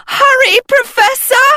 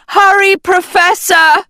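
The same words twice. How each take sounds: First: Very high, loud holler falling on Hurry. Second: Loud, high shout rising on Professor. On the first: A girl yelling for her teacher to hurry, very high holler. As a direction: yell it at the top of your voice. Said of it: "Sophie hollered". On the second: A girl urging her teacher from above the cave, high rising shout. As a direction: call down into the cave, urgent. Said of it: "Agatha shouted into the cave". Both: A narrator's reading.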